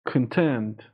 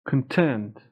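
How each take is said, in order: No difference in how they are said.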